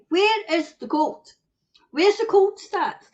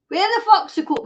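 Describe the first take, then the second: First: The word where asked a touch higher, polite; mock-polite question; polite version. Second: Blunt demand, a bit raised; mock-outraged demand; rude version. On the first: Shown as a demonstration. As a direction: ask where is the cold nicely. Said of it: "I'm quite polite". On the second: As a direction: ask it the rude way, sweary and pushy. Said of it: "Well, don't say".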